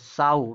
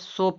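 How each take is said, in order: First: The vowel is an 'ow' sound. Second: The vowel is a long 'oh' sound. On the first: It means a female pig. "साऊ मतलब मादा सुअर" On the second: It means to plant seeds. "सो पढ़ा जाएगा तो इसका मतलब निकलेगा बीज बोना"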